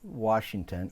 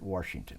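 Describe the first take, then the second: First: The first syllable has no r sound. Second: The first syllable has an added r sound.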